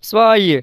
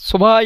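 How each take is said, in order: First: The v sound is soft, barely heard. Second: The v sound is said fully and hard. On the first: The speaker calls it right. "ভের উচ্চারণটা সফট হবে" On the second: The speaker calls it wrong. "শোভাই এভাবে বলা যাবে না।"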